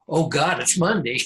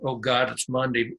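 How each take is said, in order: First: It sounds eager and full of excitement. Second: It sounds weary and full of dread.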